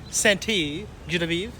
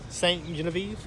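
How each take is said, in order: First: Saint is said with an added ending syllable. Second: Saint is said as one syllable. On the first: "or is it pronounced Saint-E?" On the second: "Is it pronounced Saint Genevieve"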